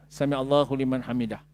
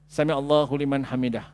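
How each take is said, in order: No difference in how they are said.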